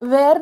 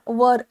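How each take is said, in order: First: The vowel sounds like the one in 'wear'. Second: The vowel sounds like the one in 'fur'. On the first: The speaker calls it wrong. "वेअर नाही म्हणायचं" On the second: The speaker calls it right. "वर असाच उच्चार असतो त्याचा"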